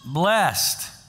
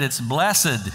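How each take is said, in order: First: The word is said short, in one syllable. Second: The word is drawn out over more syllables.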